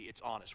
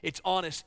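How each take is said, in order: First: It's honest dropped lower and softer; softer emphasis. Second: Said in the usual way. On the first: Shown as a demonstration. Preacher repeating to the congregation that a lament is honest, softer. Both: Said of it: "The beauty of a lament is that it's honest".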